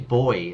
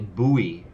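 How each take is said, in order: First: The word is one syllable, like boy. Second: The word is two syllables, like boo-ee. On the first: This is how the speaker says it. "So I say boy as well" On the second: This is how Americans say it. "I think Americans say buoy"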